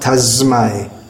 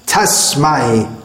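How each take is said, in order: First: The middle consonant is softened to z sound. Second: The middle consonant is a sharp s sound. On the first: The speaker calls it wrong. "That sir should not be softened to a z sound" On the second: The speaker calls it right. "that sir should be pronounced Tasmai"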